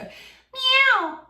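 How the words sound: The meow is sharp, bright and pointy. The speaker calls it right. "a really pointy sound"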